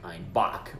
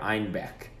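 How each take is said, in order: First: The second syllable sounds like 'bock'. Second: The second syllable sounds like 'beck'. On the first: This southern version sounds like the word for billy goat. "the Bavarians misconstrued that to sound like Einbock" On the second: This is the original northern name of the town. "in the north, they pronounce the beer Einbeck"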